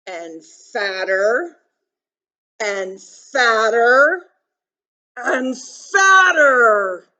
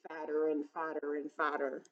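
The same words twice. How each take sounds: First: Slow "fatter", louder each time; building swell. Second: Said in the usual way. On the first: A narrator's reading. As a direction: stretch and swell each "fatter" to a big finish. Story repetition swells with the bee.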